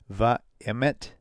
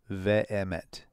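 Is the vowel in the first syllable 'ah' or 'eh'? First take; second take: ah; eh. First: The first syllable has an 'ah' vowel. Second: The first syllable has an 'eh' vowel. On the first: The speaker calls it wrong. "not va-em" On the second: The speaker calls it right. "it's ve-emet"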